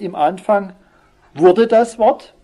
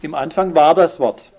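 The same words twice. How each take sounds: First: "wurde" loud, high and stretched, tune left hanging; stress on WURDE. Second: "war" firmly stressed, then falling to a close. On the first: Preacher correcting a misreading, "wurde" stressed high and slow. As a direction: punch "wurde" as the wrong reading, drawn out. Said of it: "es heißt nicht". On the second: Preacher giving the correct verse, firm stress on "war" and falling end. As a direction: land firmly on "war" as the right reading. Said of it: "sondern, wie heißt es?". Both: Shown as a demonstration.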